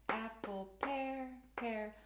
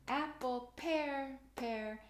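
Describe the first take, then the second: No difference in how they are said.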